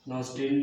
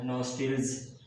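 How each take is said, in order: First: "नोस्ट्रिल" without the Z sound at the end; mispronounced "नोस्ट्रिल", no voiced Z ending; wrong ending of nostrils. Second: "नोस्ट्रिल्स" ending on a voiced Z. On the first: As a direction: say "नोस्ट्रिल" lacking its final buzz. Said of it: "नोस्ट्रिल नहीं करना". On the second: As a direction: say "नोस्ट्रिल्स" with a buzzing Z at the end. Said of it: "जी की sound आपने देनी". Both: Shown as a demonstration.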